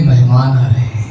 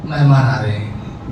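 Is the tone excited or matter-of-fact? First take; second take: excited; matter-of-fact. First: It is said in an excited, joyful tone. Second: It is said in a plain, matter-of-fact tone. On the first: It announces the arrival as glad tidings. "एक होता है अरे मेहमान आ रहे हैं" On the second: It merely gives the news of an arrival. "एक होता है मेहमान आ रहे हैं"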